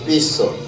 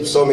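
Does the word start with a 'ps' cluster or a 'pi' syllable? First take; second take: pi syllable; ps cluster. First: It starts with a separate 'pi' syllable. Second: It starts with a 'ps' consonant cluster. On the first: The speaker calls it wrong. "ils disent pison" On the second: The speaker calls it right. "au lieu de dire psaume"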